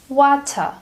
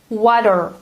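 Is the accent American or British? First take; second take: British; American. First: The middle t is a crisp t. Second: The middle t sounds like a soft d. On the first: "British English sounds completely different" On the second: "compare American to British accent"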